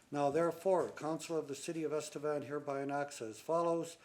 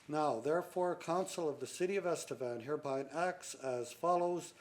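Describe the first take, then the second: No difference in how they are said.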